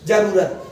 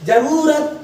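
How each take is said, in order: First: जरूरत said low with a heavy push; pushing hard on जरूरत; wrong stress. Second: जरूरत said with every syllable clear; careful reading. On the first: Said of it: "जोर नहीं देते हैं". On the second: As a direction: read जरूरत slowly and cleanly. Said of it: "कम से कम पढ़ते वक्त कहो ना". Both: Shown as a demonstration.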